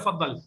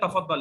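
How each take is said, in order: First: The first syllable is dropped, starting with fa. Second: The word is said in full, starting with ta. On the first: This is the common colloquial form. "फद्दल आम लहजा है" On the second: This is the original standard word. "असल लफ्ज है अरबी में तफद्दल"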